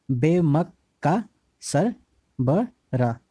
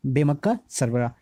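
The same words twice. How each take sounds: First: Drawn out slowly. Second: Said in the usual way. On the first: Shown as a demonstration.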